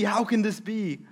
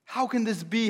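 First: Higher, falling dismay; disbelief. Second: Higher, incredulous question; can't believe what they're seeing; disbelief. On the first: A preacher voicing guests, falling dismay. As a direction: shake your head at it. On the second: A preacher voicing guests, rising disbelief. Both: Acted.

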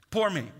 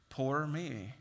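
First: Louder, higher mock whine on poor me; whiny poor me. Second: Resigned sigh of self-pity. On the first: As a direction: wail poor me like a self-pitying complainer. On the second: Retold or imitated. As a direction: mumble poor me as if giving up. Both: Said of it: "self-pity".

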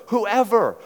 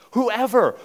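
Both takes have the same delivery.

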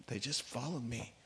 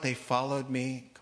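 First: Softer, letting it sink in; much softer. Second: Said in the usual way. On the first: Shown as a demonstration. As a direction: drop right down, almost under the breath.

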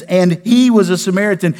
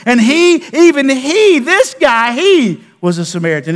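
First: Said in the usual way. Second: High, loud stress on he; emphatic. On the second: Shown as a demonstration. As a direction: punch "even he" and "this guy". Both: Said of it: "it's in the emphatic".

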